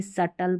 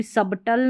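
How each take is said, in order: First: सटल with no b before t; silent b. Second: सबटल with the b wrongly sounded; mispronounced सबटल. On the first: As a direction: go straight to t in सटल. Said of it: "सटल पढ़ेंगे". (सटल, बिना ब के) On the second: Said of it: "सबटल नहीं पढ़ते". (सबटल में ब बोलकर ग़लत उच्चारण) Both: Shown as a demonstration.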